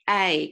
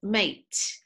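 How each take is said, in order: First: It is said with an Australian accent. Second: It is said with an English accent. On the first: "But Australian accent is" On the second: "And this is English accent"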